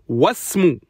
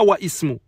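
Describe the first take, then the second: First: The words run together without a glottal stop. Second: A glottal stop separates the two words. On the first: The speaker calls it right. "Wasmu, on dit pas Wa Ismu" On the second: The speaker calls it wrong. "on dit pas Wa Ismu"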